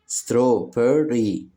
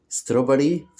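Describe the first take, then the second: First: "strawberry" slowly as straw, ber, ry; split into syllables. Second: Said in the usual way. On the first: Shown as a demonstration. Teacher showing children three syllables, "strawberry" split slowly. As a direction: say "strawberry" in three separate beats. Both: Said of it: "كلمات فيها تلات مقاطع صوتية".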